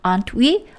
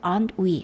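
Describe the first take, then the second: First: The pitch rises at the end. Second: The pitch falls at the end. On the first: The asker truly does not know if the listener agrees. "뒤를 올립니다. aren't we? 하고 올리고요" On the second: The asker is confident the listener will agree. "확신을 한다면 aren't we? 하고 내립니다"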